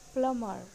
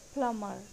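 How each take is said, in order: First: The b sound is silent. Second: The b sound is silent.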